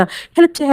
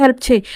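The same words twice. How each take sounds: First: 'help చేయి' lifted higher and softer, rising at the end; softer mocking 'help చేయి' with a rising tail; mocking rising order. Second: 'help చేయి' pressed down and falling; falling 'help' punched, 'చేయి' closing it off; curt falling order. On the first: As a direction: toss 'help చేయి' up as a sneering question. Sarcastic order to go help. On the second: Acted. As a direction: drop 'help చేయి' like a final command. Repeats order, dropping flat.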